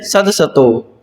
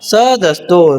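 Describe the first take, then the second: First: A vowel is heard between the s and t. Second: The s and t are joined with no vowel. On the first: The speaker calls it wrong. "सदसतो नहीं है ये" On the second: The speaker calls it right. "सही उच्चारण क्या है इसका"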